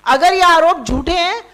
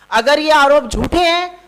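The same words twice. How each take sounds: The two takes are said the same way.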